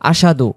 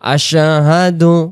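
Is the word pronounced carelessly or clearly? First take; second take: carelessly; clearly. First: The word is said carelessly, sounds not clearly separated. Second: The word is said clearly, each sound distinctly articulated. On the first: The speaker calls it wrong. "এই শব্দটা অনেকে আমরা বলে ফেলি আশহাদু" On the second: The speaker calls it right. "এখানে স্পষ্ট করে আমরা বলবো"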